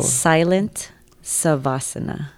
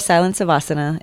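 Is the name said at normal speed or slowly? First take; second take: slowly; normal. First: The name is said slowly and deliberately. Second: The name is said at normal conversational speed.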